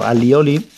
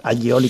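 First: Said in the usual way. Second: Alioli with a palatal ly, "a-lyi-o-li"; Valencian ll. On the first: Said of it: "está en el diccionario". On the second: Shown as a demonstration. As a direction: say alioli with Valencian ll instead of plain l. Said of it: "que es como decimos aquí".

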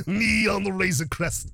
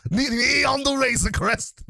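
First: Said in the usual way. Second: Mock announcer title. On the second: Shown as a demonstration. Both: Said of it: "I'm calling this segment".

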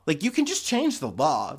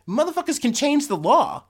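First: Said in the usual way. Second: High, loud outburst at "change"; outraged shout. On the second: Real, not acted. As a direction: blurt it out in disbelief.

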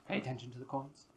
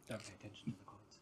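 First: Said in the usual way. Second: "Don't pay attention to the coins" whispered fast; whispering. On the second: Shown as a demonstration. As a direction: hush it like a secret aside. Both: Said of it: "contrasting statements".

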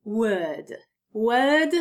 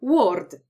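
First: „word” with a long, stretched e and no r; poprawna wymowa. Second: „word” with a Polish o vowel; błędna wymowa z o. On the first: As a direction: say „word” with a long e sound, never o. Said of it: "poprawna wymowa tego słówka". („word” przez długie e) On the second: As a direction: say „word” as Poles often do, with o. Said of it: "większość z was powie". („word” wymówione przez polskie o) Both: Shown as a demonstration.

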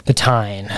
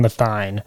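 First: "Tyne" like "tine"; crisp T starting "Tyne". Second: Soft TH starting "Tyne"; "Tyne" opening on a TH sound. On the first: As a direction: say "Tyne" with a hard T. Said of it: "I don't know how you say it". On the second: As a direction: say "Tyne" as "thine". Trying two sayings of city name. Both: Shown as a demonstration.

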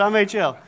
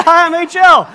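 First: Said in the usual way. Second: High, very loud hello; hammed-up, shouted self-introduction; over-eager greeting. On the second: Preacher greeting the angry husband for laughs, over-eager shout.

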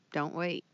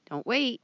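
First: Said in the usual way. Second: Emphatic urging. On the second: Real, not acted. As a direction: call it out hard as an urgent plea. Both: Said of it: "Keep on saying it".

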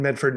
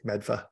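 First: Said in the usual way. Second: Boston accent, Medfa with dropped r. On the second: Shown as a demonstration. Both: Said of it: "Medford in a Boston accent is great".

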